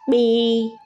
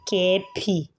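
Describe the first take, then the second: First: One joined sound is spoken. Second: Two separate letter names are spoken. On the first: The speaker calls it right. "pronounce it as one" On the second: The speaker calls it wrong. "Please don't say K P"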